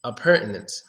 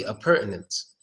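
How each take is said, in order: First: "Appurtenance" with a clear T: a-pur-te-nance. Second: "appurtenance" with no T sound: a-pur-nance; soft "appurtenance", T left out; without the T. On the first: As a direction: keep the T in "Appurtenance". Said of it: "typically it's appurtenance". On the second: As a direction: drop the T in "appurtenance". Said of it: "pronounce it without the T". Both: Shown as a demonstration.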